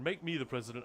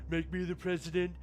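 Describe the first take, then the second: First: It is said in the speaker's ordinary voice. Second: It is said in an imitated put-on voice.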